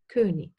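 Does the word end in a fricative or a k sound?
k sound. The word ends in a hard k sound. This is a regional variant.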